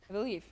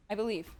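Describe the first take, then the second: No difference in how they are said.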